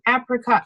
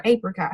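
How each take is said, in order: First: "apricot" with first vowel as in apple; short-a apricot. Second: "apricot" with first vowel as in ape; long-a apricot. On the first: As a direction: say "apricot" starting like "app". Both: Shown as a demonstration. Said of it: "however you say it".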